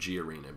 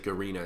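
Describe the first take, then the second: First: It begins with the letter name 'gee'. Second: It begins with a short 'ga' sound. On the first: The speaker calls it wrong. "I've been saying it wrong this entire time" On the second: The speaker calls it right. "that's just how you say it"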